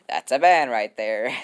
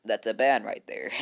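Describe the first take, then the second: First: "ban" drawn out, louder and slow; firm slow verdict. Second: Said in the usual way. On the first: Shown as a demonstration. Moderator to the fans, a slow laughing verdict. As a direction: lay down the law slowly.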